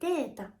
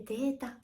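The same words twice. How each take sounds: First: The pitch drops partway through the word. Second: The pitch starts low, then stays high and level. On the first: "データではなくて" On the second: "平板のアクセント"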